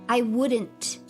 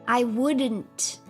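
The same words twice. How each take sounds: The two takes are said the same way.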